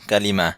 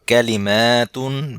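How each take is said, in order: First: The word ends softly, like an 'h' sound. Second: The word ends with a full 'tun' sound.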